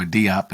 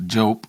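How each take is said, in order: First: "Diop" said in two syllables, "DEE-op"; "Diop" with a distinct "ee" before "op"; two-syllable pronunciation. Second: "Diop" said as one syllable, like "Jope"; "Diop" rhyming with "hope"; one-syllable pronunciation. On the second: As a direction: say "Diop" run together as "Jope". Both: Shown as a demonstration. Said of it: "as some folks call him".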